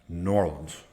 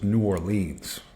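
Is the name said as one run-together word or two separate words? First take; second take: one word; two words. First: The name is run together as one word. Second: The name is said as two separate words. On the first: The speaker calls it right. "he almost says it's like it's one word" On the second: The speaker calls it wrong. "back then I said it was New Orleans"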